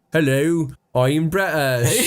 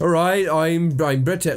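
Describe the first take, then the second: First: Put-on broad West Country British accent; American overdoing a British accent; overdone British accent. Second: Bad Cockney British accent, slow; American faking Cockney British badly. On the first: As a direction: lay the British accent on too thick, slowly. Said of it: "that's actually too British".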